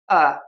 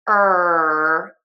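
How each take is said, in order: First: The R sounds slack like uh. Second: The R sounds clear and tense. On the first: The speaker calls it wrong. "or they relax too much" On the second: The speaker calls it right. "square, tense shapes, it's going to sound a lot better"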